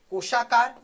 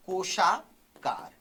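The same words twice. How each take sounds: First: "कोशाकार" loud and in one piece; announcing the term. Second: "कोशाकार" stretched out in two parts; slow dictation. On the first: Teacher announces the next type to students, "कोशाकार" said loudly. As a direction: call out "कोशाकार" as a new heading. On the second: Teacher dictates a term to students, "कोशाकार" slowly stretched. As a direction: draw "कोशाकार" out slowly, part by part. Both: Shown as a demonstration.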